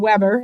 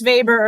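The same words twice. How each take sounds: First: The name is said the American way. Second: The name is said the non-American way.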